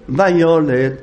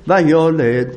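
Both takes have the same delivery.

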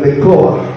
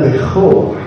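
First: The consonant is a hard stop k sound. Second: The consonant is a soft, breathy kh sound. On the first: The speaker calls it wrong. "ולא כמו שהוא אומר ברדיו" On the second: The speaker calls it right. "זכה רפויה"

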